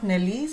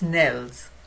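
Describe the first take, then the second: First: The ending is said with two syllables. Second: The ending is said with one syllable. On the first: The speaker calls it wrong. "It's not Nellies" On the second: The speaker calls it right. "it's Nels"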